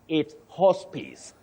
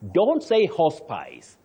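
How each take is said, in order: First: The last syllable does not rhyme with vice. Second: The last syllable rhymes with vice. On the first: The speaker calls it right. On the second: The speaker calls it wrong. "you just say vice, mice, dice, and rice. But please, don't say"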